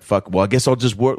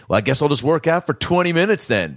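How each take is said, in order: First: Said in the usual way. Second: Passive-aggressive threat pitched higher, imitating; a guy sulkily threatening to work out instead; mock threat. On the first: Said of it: "he's like". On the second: Gym guy threatening staff, imitated high and sulky. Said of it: "like, threatened them".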